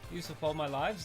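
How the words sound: It is said in a put-on Scottish accent.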